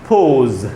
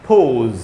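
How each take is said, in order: Both takes have the same delivery.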